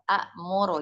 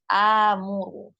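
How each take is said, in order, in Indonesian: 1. Vokal pendek dipotong oleh hamzah sebelum m. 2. Vokal panjang langsung bersambung ke m. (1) "Asal dari a'muru kayak akulu, akhudu, tapi itu sulit" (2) "ditashilkan dengan disatukan hamzanya kemudian dimadkan"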